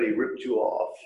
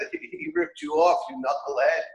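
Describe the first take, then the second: First: Said in the usual way. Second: Ripped jumps high, then a scoffing you knucklehead; outraged friend scoffing; mock outrage. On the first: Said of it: "And the friend says". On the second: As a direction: hit ripped way up in disbelief. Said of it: "this is the mashal".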